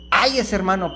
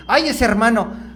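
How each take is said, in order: First: Gentle "Ay, ese hermano" said fondly; kind tone. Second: Exasperated sigh over a brother, higher and louder; grumbling about a church brother; mock complaint. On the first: Shown as a demonstration. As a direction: say it with affection. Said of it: "hay que cambiarlo por". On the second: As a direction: complain with a weary "ay". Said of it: "te estás quejando del hermano".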